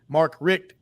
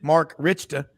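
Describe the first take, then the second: First: The surname is said with one syllable. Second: The surname is said with two syllables.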